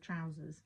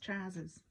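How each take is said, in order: First: The word is said in a standard accent. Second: The word is said in a Cockney accent.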